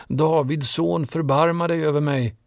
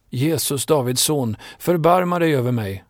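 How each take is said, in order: First: Calling even louder. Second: Calling out. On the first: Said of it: "Men han ropade bara högre". (ropar ännu högre, långsamt och högt) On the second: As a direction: cry out to him from the roadside. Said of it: "började han ropa". (ropande bön om förbarmande) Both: A narrator's reading.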